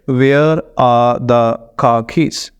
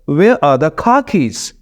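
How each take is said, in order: First: Every word gets even stress, syllable by syllable. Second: Stress falls on where, car and keys only. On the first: "Pakistani accent में अगर पढ़े हम" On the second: "एक britisher इसको ऐसे पढ़ेगा"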